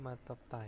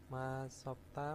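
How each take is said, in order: First: The middle consonant is a t sound. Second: The middle consonant is an s sound.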